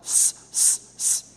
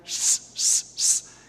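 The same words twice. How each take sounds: First: The s is flat, Latin American style. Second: The s is apical, Castilian Spanish style.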